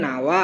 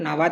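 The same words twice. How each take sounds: First: "নাওয়া" as na-wa with a soft glide; glided form. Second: "নাবা" repeated with the middle consonant sounded; source form. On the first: Teacher repeating the changed form, soft "নাওয়া". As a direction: slide through ওয়া in "নাওয়া". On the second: Teacher repeating for practice, sounded consonant in "নাবা". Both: Shown as a demonstration. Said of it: "এইভাবে ব্যাপারটা উচ্চারণ".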